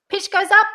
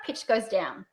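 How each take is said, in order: First: High, loud rise on "up"; pitch going up. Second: Low, soft fall on "down"; pitch going down. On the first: Coach points out the tune, pitch up. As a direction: send "up" high and leave it open. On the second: Coach points out the tune, pitch down. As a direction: drop "down" to the bottom. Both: Shown as a demonstration.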